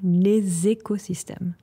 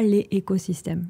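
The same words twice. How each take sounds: First: The s of les links into écosystèmes. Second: Les and écosystèmes are said without linking. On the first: The speaker calls it right. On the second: The speaker calls it wrong.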